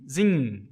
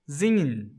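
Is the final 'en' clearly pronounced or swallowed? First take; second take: swallowed; swallowed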